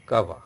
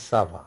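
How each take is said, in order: First: "kava" with a k at the start; invalid hard C. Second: "sava" with an s at the start; valid soft C. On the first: Teacher showing the invalid word without cedilla, "kava" with hard k. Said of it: "Kava is no meaning". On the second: Teacher showing the valid word with cedilla, "sava" with soft s. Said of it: "you have to put the accent sedil". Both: Shown as a demonstration.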